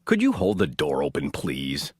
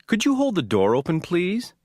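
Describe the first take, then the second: First: Low, flat, curt demand; impolite request. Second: Rising, light polite ask; courteous rising please; polite request. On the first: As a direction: bark it without courtesy. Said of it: "The second is not". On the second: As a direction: ask sweetly, lifting at the end. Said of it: "The first is polite". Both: Shown as a demonstration.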